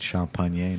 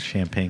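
First: It is pronounced with a French accent. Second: It is pronounced with an English accent. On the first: The speaker calls it right. "See the way I said champagne" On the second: The speaker calls it wrong. "not champagne"

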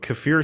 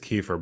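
First: It is pronounced like the original foreign word. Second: It is pronounced in a plain English way. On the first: This sounds closer to the word's language of origin. "kefir sounds more like legit, like, you know, in its origin language" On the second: This is the speaker's guess at the usual form. "I think it's kefir"

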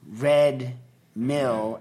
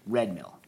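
First: Red and mill are said as separate words. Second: Red and mill are said as one unit. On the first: It is a mill that happens to be red. The speaker calls it wrong. "they hate it when you say red mill as though the red and the mill are separate" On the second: It is the name of one thing. The speaker calls it right. "it's red mill"

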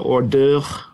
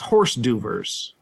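First: It has a French pronunciation with a throaty r. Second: It is said letter by letter, like horse. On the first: "the French might say it closer to hors d'oeuvre" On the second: "What we don't say is horse d'oeuvres"

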